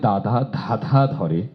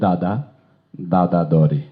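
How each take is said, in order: First: The dh sounds carry a puff of breath. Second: The dh sounds are plain, without breath.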